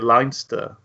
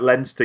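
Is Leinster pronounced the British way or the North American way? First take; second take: North American; British. First: It is pronounced the North American way. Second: It is pronounced the British or Irish way. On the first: "You've become so North American now ... you'd say it Leinster" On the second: "you wouldn't say that Leinster"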